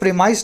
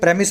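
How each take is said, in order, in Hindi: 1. यह लंबी 'pree' ध्वनि से शुरू होता है। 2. यह छोटी 'prem' ध्वनि से शुरू होता है। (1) "इसको प्रीमाइस ना बोल के" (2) "प्रेमिस बोलते हैं"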